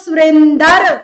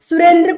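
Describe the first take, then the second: First: The ending is drawn out as a separate 'dar'. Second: The ending is said as a tight 'dra' cluster. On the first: The speaker's regional speech shows through. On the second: This is the standard form of the name.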